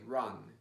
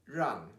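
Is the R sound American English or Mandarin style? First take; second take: American English; Mandarin. First: The R is an American English R. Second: The R is a Mandarin retroflex sound. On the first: The speaker calls it wrong. "If you say it like in American English" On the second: The speaker calls it right. "so this is rang"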